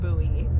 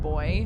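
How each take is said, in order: First: The word does not sound like boy. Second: The word sounds just like boy. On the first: "I've only ever pronounced it buoy" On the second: "pronounced it boy"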